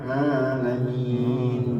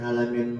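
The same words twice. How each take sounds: First: It starts with a throaty sound pushed into the nose. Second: It starts with a plain open vowel. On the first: Praise belongs to the Lord of the worlds. The speaker calls it right. "maka mesti dimasukkan ke hidung" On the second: Praise belongs to a God who is in pain. The speaker calls it wrong. "segala puji bagi Allah yang sakit"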